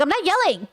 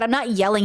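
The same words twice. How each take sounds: First: High-pitched mock indignant denial; exaggerated defensive retort, pitch jumping up; protesting. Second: Said in the usual way. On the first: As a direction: squeal a protest at your partner's accusation. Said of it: "you're yelling again".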